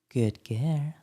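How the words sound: It is said in a playful, teasing tone. "or mortising for the mortising"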